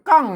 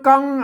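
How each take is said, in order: First: The word is said on a falling tone. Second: The word is said on a level mid tone. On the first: "เสียงโทปกติ" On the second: "อ่านเสียงสมาน"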